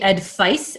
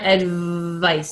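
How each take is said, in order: First: The middle consonant is a voiceless F sound. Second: The middle consonant is a buzzing V sound. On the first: The speaker calls it wrong. "it comes out as an F, and it'll be advice" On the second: The speaker calls it right. "and you want advice"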